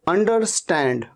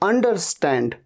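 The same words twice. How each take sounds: Both takes have the same delivery.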